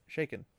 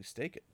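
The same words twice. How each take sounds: First: Shaken with a clear sh sound; self-corrected shaken. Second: Staken with an st sound instead of sh; tongue-tied staken; mispronounced. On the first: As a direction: fix it to shaken. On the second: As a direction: slip and say staken. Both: Real, not acted.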